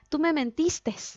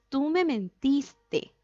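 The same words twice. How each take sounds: First: The verb ends with an added s sound. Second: The verb ends without an added s sound. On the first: The speaker calls it wrong. "eso está mal dicho" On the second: The speaker calls it right. "Es tú me mentiste"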